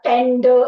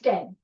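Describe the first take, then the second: First: The word is said with heavy, forceful stress. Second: The word is said lightly, without heavy stress. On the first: The speaker calls it wrong. "Not tend. ... that will make it a like, you know, heavy accented uh, word" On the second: The speaker calls it right. "It's tend"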